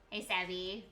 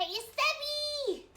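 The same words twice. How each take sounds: First: Said in the usual way. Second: High, drawn-out call of the name Savvy; delighted hello; excited greeting. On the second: Real, not acted. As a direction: sing out the name in welcome. Greeting friend joining.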